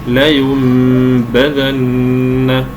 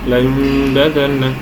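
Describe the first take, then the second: First: The b is firm but not overly pressed. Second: The b is weak and blended into the nasal. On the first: The speaker calls it right. "غير ضعيفة وغير آه، شديدة جدا بكز الشفتين. هي هكذا" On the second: The speaker calls it wrong. "يخرجها ضعيفة متأثرة بالغنة"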